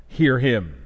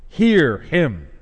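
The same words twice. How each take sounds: First: Said in the usual way. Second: "Hear" leaned on, slow and weighty; stress on hear. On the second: Shown as a demonstration. Preacher repeating God's command for weight. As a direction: repeat "Hear him" so it sinks in. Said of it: "Just two words, but how profound".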